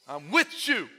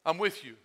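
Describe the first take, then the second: First: "with" lifted above the other words; stress on WITH. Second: Said in the usual way. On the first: Acted. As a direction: lean on "with" to reassure. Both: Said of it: "that's the way he says it".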